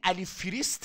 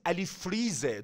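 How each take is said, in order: First: The name ends with an s-t sound. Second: The name ends with a z sound. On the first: The speaker calls it wrong. "این علی فریست نیست" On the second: The speaker calls it right. "درست تلفظش کن"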